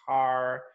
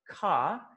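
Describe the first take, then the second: First: "car" with a strong, sounded American R; American accent. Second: Soft British "car" with the R dropped; British accent. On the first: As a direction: pronounce the final R in "car" the American way. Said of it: "they use R in the strong sounds". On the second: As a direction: say "car" as "cah", British style. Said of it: "it sounds very soft". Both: Shown as a demonstration.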